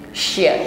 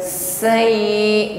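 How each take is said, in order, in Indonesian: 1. Konsonan ini punya udara yang menyebar di dalam mulut. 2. Konsonan ini adalah desis sempit di ujung lidah. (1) "ada bunyi angin yang menyebar di dalam mulut kita" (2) "bukan sekedar sai, bukan sekedar desis di ujung lidah"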